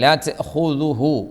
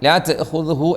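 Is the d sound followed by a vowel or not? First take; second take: vowel; no vowel. First: The d sound is followed by a u vowel. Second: The d sound has no vowel after it. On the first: The speaker calls it right. "ദാലിനും ഹൂക്കും മൂന്നക്ഷരത്തിനും ളമ്മാണ്" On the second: The speaker calls it wrong. "ദാലിന് സുക്കൂനല്ല"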